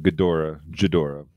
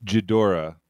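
First: Ghidorah with a hard g at the start; corrected name. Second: Ghidorah said as jih-DOR-ah; mispronounced name. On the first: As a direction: Ghidorah said as guh-DOR-ah. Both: Shown as a demonstration. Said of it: "I don't know if I said that correctly".

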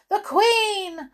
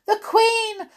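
First: High loud repeated cry; calling out. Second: High, loud alarmed call. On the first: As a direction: call it again, just as urgent. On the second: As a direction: shout a warning, high and loud. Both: A narrator's reading. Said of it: "another gardener called out".

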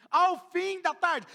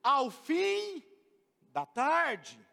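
First: Ao fim da tarde drawn out slowly with a laugh; slow, laughing reading. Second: Said in the usual way. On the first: Shown as a demonstration. Pastor rereads the verse to the church, slow and laughing. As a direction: stretch Ao fim da tarde out, chuckling.

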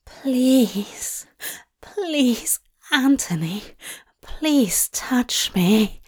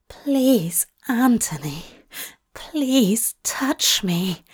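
First: Breathy, pleading, slowing to a whisper; desperate plea. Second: Pleading, forced out between shaky breaths. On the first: Lover begging Anthony to touch him, desperate plea. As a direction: beg with ragged breath. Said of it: "Aziraphale read, a desperate plea". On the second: Lover repeating his plea between shaky breaths. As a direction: beg slowly, breath catching. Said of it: "the words forced out between shaky breaths". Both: A narrator's reading.

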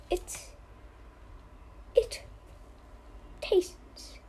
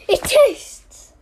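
First: Softer, whispered tastes. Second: Louder, punchy It tastes. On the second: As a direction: say It tastes out loud and firm. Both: Pretend. Pondering tea taste.

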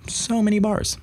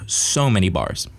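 First: Much higher echo of "so many bars"; small high voice on "so many bars"; high-pitched awe. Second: Said in the usual way. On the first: Real, not acted. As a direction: repeat it way up high, marveling. Repeats the phrase in mock awe.

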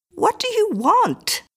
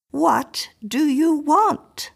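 First: High, slow, alarmed "What do you want?"; alarmed question. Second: "What do you want?" repeated very slowly, rising on "want"; slow repeated question. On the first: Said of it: "asked Missus Miller". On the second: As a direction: drag out each word of "What do you want?". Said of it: "she repeated". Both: A narrator's reading.

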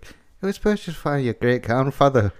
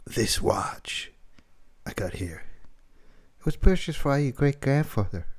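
First: Second go at Walken, near his own voice; lightly voiced Walken, drifting accent; Christopher Walken impression. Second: Halting Walken read, long pauses; Christopher Walken impression. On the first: Host retrying Walken line, sounding Irish. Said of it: "it sounded like Mark Wahlberg". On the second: Host attempting Walken's watch speech, lightly voiced. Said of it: "Christopher Walken".

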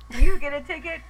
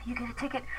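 First: Loud, high mock cop; mock cop shout. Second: Hushed teasing whisper; whispered mock cop. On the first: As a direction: bellow it like a game-show host. Mocking cops, loud. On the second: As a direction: breathe it like a taunt. Mocking cops, whispered.

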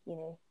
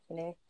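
The two takes are said the same way.

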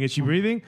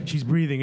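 First: "Is she breathing" rising at the end; doubting question. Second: Said in the usual way. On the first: Acted. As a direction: turn "Is she breathing" into a question, pitch lifting. Same words turned into doubting question.

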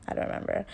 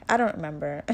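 First: Breathy laugh through the words, almost whispered. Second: Said in the usual way. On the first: Real, not acted. Laughing softly at herself to viewers, whispered. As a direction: giggle it out under your breath.

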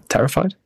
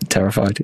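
First: "Terrified" as a question, jumping high at the end; questioning repeat. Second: Said in the usual way. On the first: Real, not acted. Co-host doubting his word choice, questioning "Terrified" with a rise. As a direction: query your own word "Terrified" with a high rising tune.

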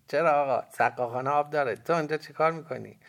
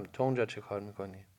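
First: Put-on high, loud boy's retort; cheeky boy. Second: Said in the usual way. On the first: A narrator's reading. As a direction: answer back as a boy, pitched up and loud. Boy answers back in story.

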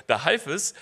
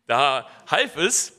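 First: Said in the usual way. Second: Slow restart. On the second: Real, not acted. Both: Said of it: "so, jetzt habe ich's wieder".

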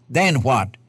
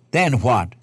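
Both takes have the same delivery.

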